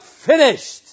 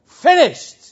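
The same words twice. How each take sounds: First: Loud high triumphant cry; ringing shout of completion; cried out. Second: Louder, higher peak cry; cried out even higher. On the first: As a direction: call it out in victory. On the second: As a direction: push it to the top in triumph. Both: Acted. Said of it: "he cried out".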